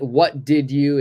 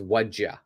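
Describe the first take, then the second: First: All three words are said in full. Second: The words run together as 'what'd ya'.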